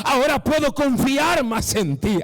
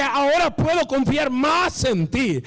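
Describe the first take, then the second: First: Loud, higher preached line at normal pace; preached quote of God. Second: Slowed preached quote. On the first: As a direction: proclaim God's words at full voice. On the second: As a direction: stretch God's words out, weighty and slow. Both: Acted. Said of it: "Dios dice".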